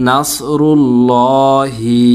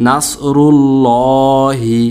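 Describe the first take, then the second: No difference in how they are said.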